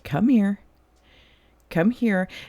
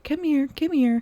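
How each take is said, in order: First: It is said warmly like an welcoming grandpa. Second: It is said in a tiny voice like to a dog.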